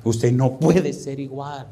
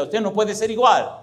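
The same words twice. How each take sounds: First: Very slow, measured delivery; slow, weighty repeat. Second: High, emphatic preaching peak; emphatic climax. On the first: Preacher letting the point settle on listeners, slow and grave. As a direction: let each word sink in slowly. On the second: Preacher urging the congregation to change, emphatic. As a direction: drive the point home at raised pitch. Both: Real, not acted.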